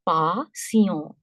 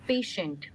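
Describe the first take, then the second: First: The final t is silent, French style. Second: The final t is pronounced, English style.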